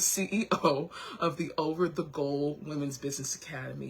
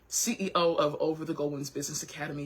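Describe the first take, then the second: First: The phrase is spoken at a slower pace. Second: The phrase is spoken at a fast pace. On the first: The speaker calls it right. "I'm going to say it a little bit slower" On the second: The speaker calls it wrong. "I'm feeling the caffeine"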